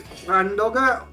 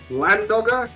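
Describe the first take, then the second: First: It begins with an attempted Welsh double L sound. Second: It begins with a plain English L sound. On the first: This is how the Welsh word should be said. The speaker calls it right. "as close as you're going to get to me doing the Welsh double L" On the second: This is how the band says it. The speaker calls it wrong. "they say it as Landogger"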